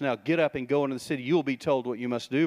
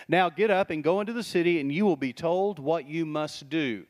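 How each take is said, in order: First: Quick, curt marching orders; brisk order. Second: Commanding order. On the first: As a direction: fire off the command fast. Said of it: "gives him marching orders". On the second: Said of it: "Sounds like an order". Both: Retold or imitated.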